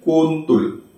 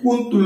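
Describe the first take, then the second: First: The vowels sound like o. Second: The vowels sound like u.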